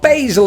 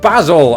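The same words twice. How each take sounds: First: It is said with an American pronunciation. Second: It is said with a British pronunciation. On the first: "You've got basil" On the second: "instead of basil"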